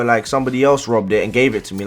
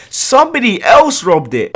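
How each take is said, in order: First: Said in the usual way. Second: Scornful echo, pitched higher; mocking repeat. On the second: Mocking the bike thief's lame excuse, pitched higher. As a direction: parrot his excuse back in disbelief.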